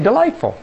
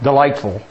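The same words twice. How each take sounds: First: The word is said warmly, with a delighted tone. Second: The word is said flatly, with a sarcastic tone. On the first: The speaker truly finds it delightful. The speaker calls it right. "You say delightful" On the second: The speaker does not really find it delightful. The speaker calls it wrong. "You don't say delightful like delightful"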